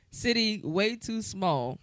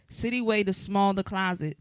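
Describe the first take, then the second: First: "City way too small" read slowly with each word set apart; slow careful reread of "City way too small"; deliberate corrected reading; corrected lyric. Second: "City way to small the closet" run together with no pause; rushing "way to small" as one phrase; plain misreading of "closet"; misread lyric. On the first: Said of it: "'cause I said closet". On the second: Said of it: "change the meaning with where you put the emphasis". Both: Shown as a demonstration.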